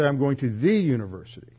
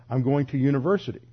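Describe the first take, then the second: First: "the" stressed and said as "thee". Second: Said in the usual way. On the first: Shown as a demonstration. Teacher contrasting American usage with British, stressed "thee" for "the". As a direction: lean on "the", pronounced "thee", before "university". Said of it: "we would say". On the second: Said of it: "They'll just say".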